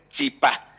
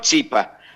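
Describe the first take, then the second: First: The stress is on the last syllable. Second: The stress is on the first syllable. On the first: The speaker calls it right. "debería ser chipá" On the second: The speaker calls it wrong. "no chipa, porque no tiene el tilde en la i"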